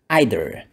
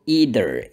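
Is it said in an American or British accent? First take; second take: British; American. First: It is said in a British accent. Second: It is said in an American accent.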